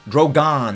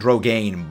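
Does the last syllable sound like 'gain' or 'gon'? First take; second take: gon; gain. First: The last syllable sounds like 'gon'. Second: The last syllable sounds like 'gain'. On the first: The speaker calls it right. "Drogon, not Drogain" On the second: The speaker calls it wrong. "not Drogain"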